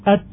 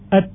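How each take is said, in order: First: The final t is hissy, like an s. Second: The final t is crisp, with no hissing. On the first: The speaker calls it wrong. "memindahkan ta ke makhrajnya huruf sin ... itu termasuk kesalahan" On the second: The speaker calls it right. "maka dikeluarkan dari makhrajnya"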